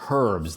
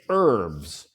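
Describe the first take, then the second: First: The word begins with an audible H sound. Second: The word begins with a vowel, no H sound. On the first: "in British English, they pronounce it herbs. The H is pronounced" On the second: "in American English, the H is silent. We say herbs"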